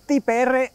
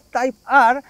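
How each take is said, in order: First: It is pronounced with Spanish-style sounds. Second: It is pronounced with English-style sounds. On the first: The speaker comes across as a boor. "eres directamente un garrulo" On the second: The speaker comes across as a snob. "te tachan de snob"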